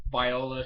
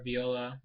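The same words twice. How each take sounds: First: "Viola" said vy-OH-la; first pronunciation. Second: "Viola" said vee-OH-la; corrected pronunciation. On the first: Reviewer trying the character's name, "Viola" as vy-OH-la. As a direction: say "Viola" with first syllable rhyming with "eye". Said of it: "or Viola". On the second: Reviewer correcting the character's name, "Viola" as vee-OH-la. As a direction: say "Viola" with first syllable like "vee". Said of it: "they said Viola". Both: Shown as a demonstration.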